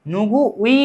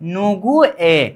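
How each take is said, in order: First: The particle is pronounced as the diphthong 'ui'. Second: The particle is pronounced as a plain 'e'. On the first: The speaker calls it wrong. "नुगु उई नहीं" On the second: The speaker calls it right.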